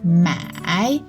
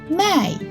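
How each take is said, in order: First: The syllable is said with the third tone. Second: The syllable is said with the fourth tone. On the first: It means to buy. "This character, the tone is the third tone" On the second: It means to sell. "this one, the tone is the fourth tone"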